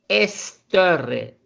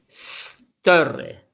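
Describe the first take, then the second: First: An extra e sound comes before the s. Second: The word starts directly with the s sound. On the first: The speaker calls it wrong. "no es Esterre" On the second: The speaker calls it right. "es Sterre"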